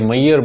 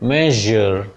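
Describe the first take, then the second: First: The middle consonant is a gliding 'y' sound. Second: The middle consonant is a buzzing 'zh' sound. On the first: The speaker calls it wrong. "पहले तो इसको या पढ़ते थे लोग" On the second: The speaker calls it right. "ये शा और जा के बीच की साउंड है"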